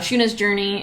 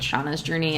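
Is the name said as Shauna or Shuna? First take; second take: Shuna; Shauna. First: The name is said like Shuna. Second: The name is said like Shauna. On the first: The speaker calls it right. "it's Shuna" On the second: The speaker calls it wrong. "I keep calling it Shauna's Journey"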